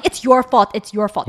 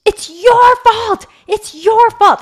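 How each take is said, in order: First: Mild mock yell, first phrase louder; retold yelling. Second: High-pitched full-voiced retold yell, drawn out; yelled accusation. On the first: Mom recounts what her daughter kept shouting, mild mock yell. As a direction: quote a child's repeated accusation, only lightly raised. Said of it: "'cause she kept yelling". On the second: Daughter blames mom in front of the neighbors, yelling. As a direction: imitate a child yelling blame, high and loud. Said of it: "she starts yelling at me".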